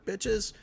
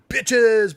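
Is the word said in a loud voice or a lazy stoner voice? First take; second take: stoner; loud. First: It is said in a slow, lazy stoner voice. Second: It is said in a big, loud voice. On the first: "Like a stoner bitches" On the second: "originally I was doing it like big"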